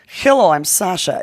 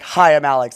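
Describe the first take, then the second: First: It is said in a put-on Russian accent. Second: It is said in a plain American accent.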